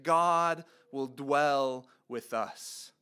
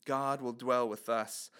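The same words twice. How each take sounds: First: Slow, weighty delivery with every word set down; slow emphasis. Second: Quieter repeat with the weight on "dwell"; soft echo. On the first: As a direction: lean on each word, slowly, like a promise. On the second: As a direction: echo the phrase softly and lean on "dwell". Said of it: "to us that God will dwell with us". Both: Shown as a demonstration.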